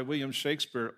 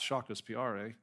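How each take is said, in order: First: Said in the usual way. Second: "Shakespeare" as "shah-kus-pee-AH-ray", slower; Italian-style pronunciation. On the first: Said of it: "or perhaps Shakespeare". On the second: Shown as a demonstration. Preacher calling back the student's version, "Shakespeare" as "shah-kus-pee-AH-ray". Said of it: "That sounds Italian".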